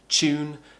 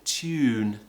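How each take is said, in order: First: It begins with a ch sound. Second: It begins with a t followed by a y. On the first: It sounds modern and everyday. "the most common way is a ch sound" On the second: It sounds old-fashioned or posh. "the old-fashioned British way ... creating this tew sound"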